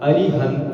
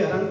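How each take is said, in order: First: It is said carefully, with every syllable sounded. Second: It is said quickly, with a middle vowel dropped. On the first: The speaker calls it right. "पूरा बोलो" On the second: The speaker calls it wrong. "अपन जल्दी जल्दी पढ़ेंगे"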